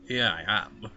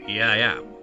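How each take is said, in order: First: It is said flatly, sounding indifferent. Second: It is said firmly, sounding full of confidence. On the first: The speaker calls it wrong. "That just sounds a bit indifferent to it" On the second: The speaker calls it right. "I said full of confidence"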